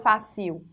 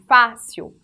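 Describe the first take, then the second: First: The last syllable is stressed instead. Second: The first syllable is stressed and opened. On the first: The speaker calls it wrong. "não falo fácil" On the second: The speaker calls it right. "eu falo fácil"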